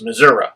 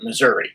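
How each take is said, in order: First: It is said the way local Missourians say it. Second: It is said the way northern outsiders say it. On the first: This is how people from the state say it. The speaker calls it right. "Real Missourians know that it's Missouri" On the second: This is how outsiders from the North say it. The speaker calls it wrong. "only Yankees call it Missouri"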